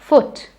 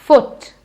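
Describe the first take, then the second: No difference in how they are said.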